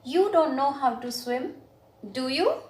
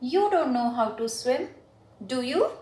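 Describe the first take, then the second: First: The voice rises at the end of the tag. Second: The same.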